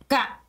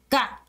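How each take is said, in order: First: The pitch drops sharply all at once. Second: The pitch drops sharply all at once.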